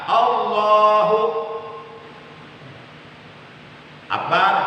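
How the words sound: A long pause separates the two words. "Apalagi berhenti yang panjang"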